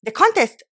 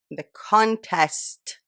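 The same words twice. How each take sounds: First: "contest" loud and very high; frustrated retake. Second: "contest" very slow, stretched syllables; careful retake. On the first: Vlogger retrying a botched line, loud high "contest". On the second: Vlogger practising past a lisp, very slow "contest". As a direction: draw out "con-test" slowly. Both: Real, not acted. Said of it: "that's how I've been speaking".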